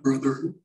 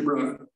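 First: The final r sound is clearly pronounced. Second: The final r becomes an 'ah' vowel. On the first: "It's not brother" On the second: "We change R's to A's"

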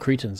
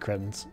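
First: The word is said the American way. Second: The word is said the non-American way.

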